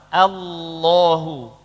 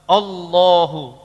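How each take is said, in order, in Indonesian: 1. Bunyi hamzah vokal di awal terdengar ringan dan tipis. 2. Bunyi hamzah vokal di awal terdengar berat dan tebal. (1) "Tapi a. Eh sama-sama a" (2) "Tidak boleh ikut-ikutan tebal. ... Tidak boleh"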